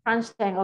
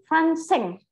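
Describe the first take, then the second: First: "Franz Cheng" repeated as Frans-Cheng, at usual pitch; corrected name pronunciation. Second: "Franseng" tried as Fran-seng, pitched high; mispronounced name. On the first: Teacher repeating the student's correction, corrected pronunciation. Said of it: "Quite right". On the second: Teacher trying a student's name, mispronounced. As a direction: say "Franseng" higher, unsure of the name. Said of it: "my name is pronounced as". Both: Real, not acted.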